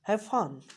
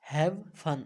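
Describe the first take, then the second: First: The v sound is skipped and merges into f. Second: The v sound of 'have' is clearly pronounced. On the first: "हैव को जो व sound है उसको skip कर देंगे and we will mix it mix up it with first sound" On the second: "we pronounce it normally like that"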